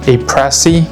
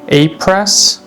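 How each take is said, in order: First: The name ends on an added ee vowel. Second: The name ends on an s sound. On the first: This is how a Japanese speaker said it. "I believe he said it's pronounced A-Pressy" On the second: This is the American way of saying it. "I'm pretty sure that's the American pronunciation"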